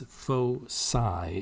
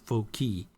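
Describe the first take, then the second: First: The c is sounded like an s. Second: The c is sounded like a hard k. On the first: The speaker calls it right. "the C is pronounced as an S here" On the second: The speaker calls it wrong. "that's not foci"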